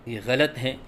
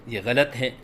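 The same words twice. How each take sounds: The two takes are said the same way.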